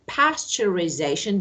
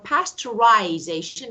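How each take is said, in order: First: It is said with an American pronunciation. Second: It is said with a British pronunciation. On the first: "that is American" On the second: "is British"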